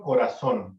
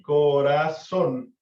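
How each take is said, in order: First: Said in the usual way. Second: "corazón" slow and loud, broken into co-ra-ZÓN; stress on last syllable. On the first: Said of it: "Por ejemplo". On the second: Shown as a demonstration. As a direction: stretch "corazón" out, landing hard on the final ZÓN. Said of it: "la fuerza la tiene en la última sílaba". ("corazón" lento y fuerte, silabeado, con fuerza en ZÓN)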